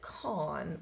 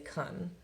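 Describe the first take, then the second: First: The vowel is a full, open o sound. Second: The vowel is reduced to a weak schwa. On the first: "this looks like con" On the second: "it flexes to the schwa, so we say kun"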